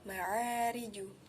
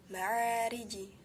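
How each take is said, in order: First: The final j bounces toward a u vowel. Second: The final j bounces toward an i vowel. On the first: "atau ma'ariju" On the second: "atau ma'ariji"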